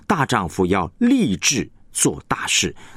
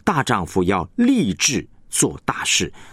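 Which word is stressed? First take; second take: 立志; 立志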